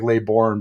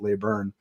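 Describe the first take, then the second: First: The second syllable sounds like 'born'. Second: The second syllable sounds like 'burn'. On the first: This is how the spelling suggests it. "it looks like Laybourne" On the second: This is how the person's own people say it. "they pronounce it Layburn"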